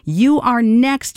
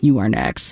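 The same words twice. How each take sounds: First: It sounds warm and encouraging. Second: It sounds menacing and threatening.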